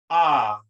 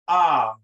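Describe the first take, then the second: First: The vowel sounds like the o in opposite. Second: The vowel sounds like the o in opposite.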